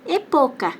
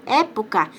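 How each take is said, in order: First: "epoca" com a força na sílaba PO; sem acento. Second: "época" com o primeiro E aberto e forte; tônica no É. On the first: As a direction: diga "epoca" com E fechado e PO tônico. ("epoca" paroxítona, tônica no meio) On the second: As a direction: acentue a primeira sílaba de "época". ("época" proparoxítona, com É aberto) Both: Shown as a demonstration. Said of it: "se eu tiro o acento".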